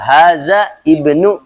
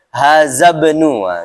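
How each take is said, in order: First: The two words are said apart, separately. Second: The two words run together without a break. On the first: "Kalau kita mau pisah nggak jadi masalah" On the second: "dibacanya langsung nyambung"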